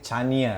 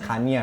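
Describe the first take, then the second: First: The name begins with a ch sound. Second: The name begins with a k sound. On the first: The speaker reads the letter C this way. The speaker calls it wrong. "So I say Chania" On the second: This is how other people say the name. The speaker calls it right. "people pronounce it Kanya"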